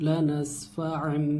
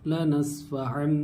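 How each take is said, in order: Both takes have the same delivery.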